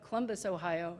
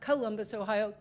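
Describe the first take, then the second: First: It is said with the local pronunciation. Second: It is said with an outsider's pronunciation. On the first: The speaker is from the place. The speaker calls it right. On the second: The speaker is not from the place. The speaker calls it wrong.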